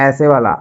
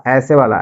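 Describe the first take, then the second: The two takes are said the same way.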